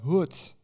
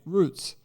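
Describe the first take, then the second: First: The R sounds like an H, Brazilian-style. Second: The R is said as a plain English R.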